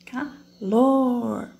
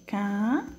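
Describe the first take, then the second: First: "Calor" with "lor" punched louder and falling; stress on LOR. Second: "calor" broken slowly into ca and lor; teacher splitting "calor" syllable by syllable for pupils; syllables split apart. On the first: Teacher to pupils, showing the strongest syllable: "Calor" with "lor" stressed. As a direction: lean hard on the last syllable of "Calor". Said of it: "qual que é a minha sílaba mais forte aqui". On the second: Teacher to pupils, showing the syllables: "calor" split into ca-lor. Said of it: "nós vamos separar aí". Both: Shown as a demonstration.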